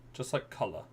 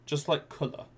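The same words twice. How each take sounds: First: Said in the usual way. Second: "colour" said with the British vowel and a higher pitch; demo pronunciation. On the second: Shown as a demonstration. Streamer showing chat a British "colour", light demo. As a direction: show the local way of saying "colour".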